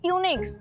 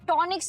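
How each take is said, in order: First: The first syllable sounds like 'tyoo'. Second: The first syllable sounds like 'taw'. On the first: The speaker calls it right. "मतलब shirt" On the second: The speaker calls it wrong. "नहीं"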